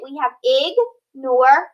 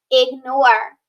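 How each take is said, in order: First: Slow, ignore split into ig and nore; split into syllables. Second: Said in the usual way. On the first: Shown as a demonstration. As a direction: stretch the syllables apart. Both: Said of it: "So we're gonna split it".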